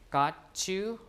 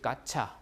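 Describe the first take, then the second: First: The t and the y stay separate. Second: The t and the y merge into ch.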